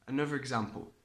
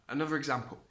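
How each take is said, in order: No difference in how they are said.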